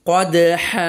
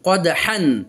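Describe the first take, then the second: First: The word ends on a long a vowel. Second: The word ends with an n sound.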